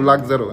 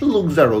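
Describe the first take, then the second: First: The first vowel sounds like 'uh'. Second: The first vowel sounds like 'oo'. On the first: The speaker calls it right. "কিন্তু লাক্সারো" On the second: The speaker calls it wrong. "লুকজারো না"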